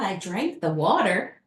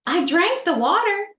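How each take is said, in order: First: Said in the usual way. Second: Second take much higher and louder; panicked realization, pitched up and loud; alarmed cry. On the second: Retold or imitated. To herself after failing the test, a panicked louder cry.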